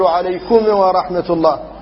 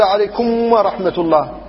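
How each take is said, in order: First: The final m is released with an echoing bounce. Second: The final m merges into the following w. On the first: "بعض الناس يقلقل الميم" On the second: "هذا هو الإدغام"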